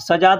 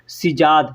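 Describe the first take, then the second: First: The first vowel is an 'a' sound. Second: The first vowel is an 'i' sound. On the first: The speaker calls it wrong. "सजाद नहीं" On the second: The speaker calls it right.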